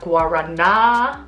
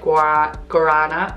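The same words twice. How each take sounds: First: The word has a Brazilian Portuguese pronunciation. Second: The word has an anglicized English pronunciation. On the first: The speaker calls it right. "Watch my pronunciation" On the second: The speaker calls it wrong. "He would kill me if I said guarana"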